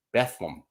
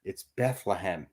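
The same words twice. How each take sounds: First: Bethlehem said as two syllables, Beth-lem; Bethlehem, quick two-syllable local version; clipped Bethlehem. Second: Bethlehem with all three syllables, Beth-le-hem; full Bethlehem. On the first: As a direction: swallow the middle of Bethlehem. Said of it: "It's not Bethlehem". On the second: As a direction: spell out every syllable of Bethlehem. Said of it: "There's three syllables in that". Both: Shown as a demonstration.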